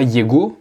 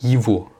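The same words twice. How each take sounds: First: The middle consonant is a hard g sound. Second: The middle consonant is a v sound. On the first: The speaker calls it wrong. "on ne dit pas « его »" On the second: The speaker calls it right. "mais « его »"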